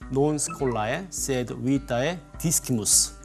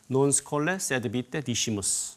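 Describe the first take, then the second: First: The c in discimus sounds like k. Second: The c in discimus sounds like s. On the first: This is the restored pronunciation of the ancient Romans. "이렇게 발음하면 그걸 고전 발음이라고 합니다" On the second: This is the pronunciation handed down through Rome and Italy. "로마 발음 또는 스콜라 발음"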